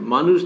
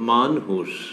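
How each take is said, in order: First: The word is said quickly and abruptly. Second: The word is said slowly, lingering on it. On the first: An ordinary living being. "মানুষ না" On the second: A person whose consciousness has awakened. "একটু আস্তে, একটু linger করো"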